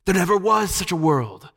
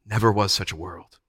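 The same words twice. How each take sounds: First: High, gliding croon; lulling witch. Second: Subdued, level repetition; enchanted echo. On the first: Witch erasing Jill's memory of her world, crooning. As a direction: spellbind with smooth certainty. Witch lulls the enchanted children. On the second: Jill and Scrub agreeing with the witch, spellbound. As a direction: repeat it without resistance. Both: A narrator's reading.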